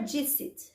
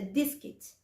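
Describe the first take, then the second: First: The c is pronounced like an s. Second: The c is pronounced like a k. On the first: The speaker calls it wrong. "O C não é" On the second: The speaker calls it right. "Ele tem som de, de cali"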